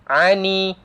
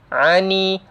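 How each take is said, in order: No difference in how they are said.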